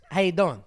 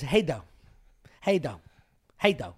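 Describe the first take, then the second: First: Said in the usual way. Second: Clipped slurred greeting; slurred how you doing. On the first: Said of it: "who says". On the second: Retold or imitated. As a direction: mumble it down to two syllables. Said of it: "But he says".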